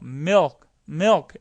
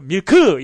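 First: It ends softly with no added vowel. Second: It ends with an added 'eu' vowel after k. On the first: The speaker calls it right. "milk 이러다 보니까 미역처럼 그걸 더 잘 알아듣는다는 거죠" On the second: The speaker calls it wrong. "밀크 이러면 안 되신다는 거예요. 그럼 으 발음이 없으니까요"

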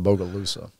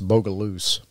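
First: The name has four syllables, ending in 'sa'. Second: The name has three syllables, ending in 'loose'. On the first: It is the outsiders' way of saying the name. The speaker calls it wrong. "they don't pronounce it Bogalusa" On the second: It is the locals' way of saying the name. The speaker calls it right. "It's Bogaloose"

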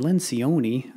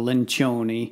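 First: The name is said with an American-sounding pronunciation. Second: The name is said with an Italian-sounding pronunciation. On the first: "Sounds like the Americanized version" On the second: "sounds more Italian"

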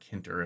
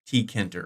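First: No T sound is heard before the K. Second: A T sound is heard before the K.

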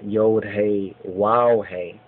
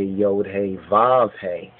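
First: The third letter name starts with a w sound. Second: The third letter name starts with a v sound. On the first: The speaker calls it right. "the proper pronunciation of the Yod Hey Wow Hey" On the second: The speaker calls it wrong. "which some say Yod Hey Vav Hey, but it's not the Vav"

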